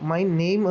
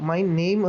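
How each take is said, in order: First: Name is said as one syllable, like 'naym'. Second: Name is said as one syllable, like 'naym'.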